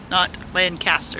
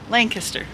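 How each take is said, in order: First: The second syllable sounds like caster. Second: The second syllable sounds like kester. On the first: The speaker calls it wrong. "it's spelled like Castor" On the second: The speaker calls it right. "you say it like Kester"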